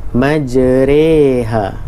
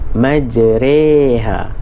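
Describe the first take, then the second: First: The vowel after r is between a and i. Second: The vowel after r is between a and i.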